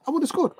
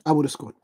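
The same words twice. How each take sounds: First: "I would have scored" jumps way up high on "scored"; hammed-up squeaky insistence, pitch soaring; over-the-top, much higher. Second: Said in the usual way. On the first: Shown as a demonstration. Ranting at the missed goal, over-the-top high-pitched insistence. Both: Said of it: "a little bit over the top there".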